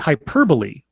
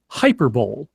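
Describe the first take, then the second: First: The word ends with two syllables, 'bo-lee'. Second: The word ends with a single 'bowl' sound. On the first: This is the intended pronunciation. The speaker calls it right. "he meant to say hyperbole" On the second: Someone else mispronounced it this way. The speaker calls it wrong. "he said hyperbole"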